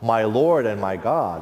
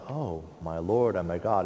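First: It is said forcefully, as an exclamation. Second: It is said flatly, without much force.

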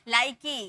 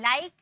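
First: The word ends with an added 'ee' vowel. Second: The word ends on the consonant with no vowel. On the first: The speaker calls it wrong. "इसको like की नहीं पढ़ेंगे" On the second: The speaker calls it right. "ई का कोई sound नहीं होता है"

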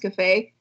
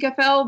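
First: The name ends on a vowel sound. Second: The name ends with an 'l' sound. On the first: The speaker calls it right. "but it was Cafe" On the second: The speaker calls it wrong. "I thought it was supposed to be Cafel"

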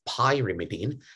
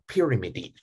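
First: The first syllable sounds like the word pie. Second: The first syllable does not sound like pie. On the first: The speaker calls it right. "I want you to pronounce it as pyrimidine" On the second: The speaker calls it wrong. "not pyrimidine"

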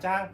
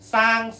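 First: It starts with a j sound. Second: It starts with an s sound. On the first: This is the Northern Thai form. "จะออกจ้างนะครับจอจาน" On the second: This is the Isan form. "อีสานเนี่ยสร้างซอโซ่"

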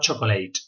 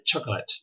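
First: It is said with Spanish pronunciation. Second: It is said with English pronunciation. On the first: The speaker calls it wrong. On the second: The speaker calls it right.

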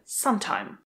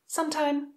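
First: Only the first syllable is stressed. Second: Both parts carry their own stress. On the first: It means at an unspecified point in time. "Sometime má přízvuk na začátku a je to jedno slovo" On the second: It means a period or amount of time. "dvě slova a každé z těch slov má přízvuk na začátku"

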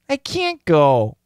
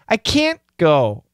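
First: The T in can't is dropped entirely. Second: The T in can't is stopped, not released.

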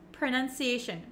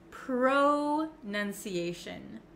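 First: The first syllable has a short uh vowel. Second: The first syllable has a full O vowel. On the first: The speaker calls it right. "kind of pronounced like a U, like an uh ... And it's very short" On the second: The speaker calls it wrong. "It looks like you could pronounce it pro"

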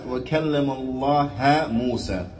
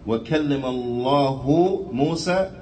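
First: The word Allah ends with an 'a' vowel. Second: The word Allah ends with a 'u' vowel. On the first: Moses spoke to God. The speaker calls it wrong. "changing the dhamma to a fatha" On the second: God spoke to Moses. The speaker calls it right. "instead of it reading"

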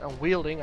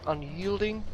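First: The middle syllable starts with a w sound. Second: The middle syllable starts with a y sound. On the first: The speaker calls it wrong. "I always pronounce it unwielding. I know it's not unwielding" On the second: The speaker calls it right. "and I hope unyielding, that's how you pronounce that thing"

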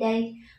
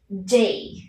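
First: The d is soft, like Vietnamese đ. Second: The d is released with a strong puff. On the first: The speaker calls it wrong. "không đọc là day day giống như đời trong tiếng Việt" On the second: The speaker calls it right. "bật ra một luồng hơi mạnh"

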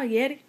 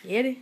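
First: The words are squashed into one short word. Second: The words are squashed into one short word.

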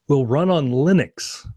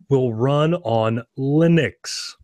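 First: It is spoken at a normal pace. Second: It is spoken very slowly.

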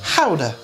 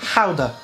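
First: The word is said with a Dutch-like pronunciation. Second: The word is said with a Dutch-like pronunciation.

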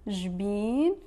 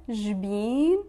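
Both takes have the same delivery.

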